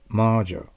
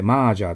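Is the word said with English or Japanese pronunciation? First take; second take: English; Japanese. First: It is said with an English vowel sound. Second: It is said with flat Japanese-style vowels. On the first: The speaker calls it right. "ベロが下、喉の声を医者に見せる。" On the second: The speaker calls it wrong. "日本語でマージャーと言ったらダメです。"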